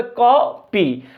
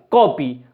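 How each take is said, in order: First: "copy" broken slowly in two, a pause between कॉ and पी; split into syllables. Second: Said in the usual way. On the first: Shown as a demonstration. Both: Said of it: "इसके अंदर दो syllable है".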